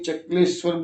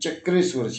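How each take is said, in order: First: The middle cluster is said with an L sound. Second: The middle cluster is said with an R sound. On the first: This is how people commonly say it. The speaker calls it wrong. "Actually ચક્લેશ્વર બોલીએ છીએ" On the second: This is the actual name. The speaker calls it right. "પણ ચક્રેશ્વર છે"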